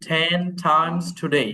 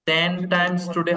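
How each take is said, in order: First: The t sounds have a puff of air. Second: The t sounds have no puff of air. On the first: The speaker calls it right. "ঠ হবে sound" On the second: The speaker calls it wrong. "হবে না"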